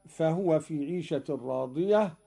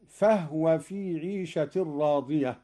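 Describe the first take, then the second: First: Said in the usual way. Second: فهو said fahwa, with no vowel on the ha; فهو recited with a sukun on the ha; silent ha. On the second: Shown as a demonstration. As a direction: join فهو into one syllable, fah-wa. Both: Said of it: "قرأ قالون بإسكان الهاء".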